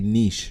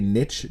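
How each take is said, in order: First: It has a long vowel, rhyming with sheesh. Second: It has a short vowel, rhyming with witch. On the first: "to rhyme with sheesh" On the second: "to rhyme with witch"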